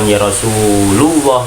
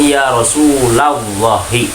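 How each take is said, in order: First: The name ends without any added final vowel. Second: The name ends with an added final i vowel. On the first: The speaker calls it wrong. "bukan ya Rasulullah" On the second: The speaker calls it right. "maka dibacanya ya Rasulullahi"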